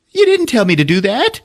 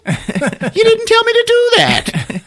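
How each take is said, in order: First: High-pitched indignant whine; protesting character. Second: Very high, slow squawked protest; hysterical protest. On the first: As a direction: protest in a raised, put-on voice. Grease Monkey protests, then louder. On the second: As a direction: drag it out in a comic shriek. Repeats protest, escalated. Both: Retold or imitated.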